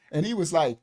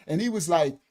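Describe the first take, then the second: No difference in how they are said.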